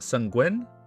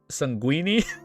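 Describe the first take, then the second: First: The word ends without a final 'ee' sound. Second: The word ends with an 'ee' sound, like linguini. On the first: The speaker calls it right. "It's pronounced sanguine" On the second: The speaker calls it wrong. "What the fuck did I say?"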